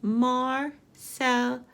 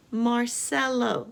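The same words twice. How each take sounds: First: Marcelo slowly in three separate beats; slow, separated Marcelo for counting; syllable by syllable. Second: Said in the usual way. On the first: Shown as a demonstration. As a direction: pause between each syllable of Marcelo. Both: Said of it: "Let's count the syllables".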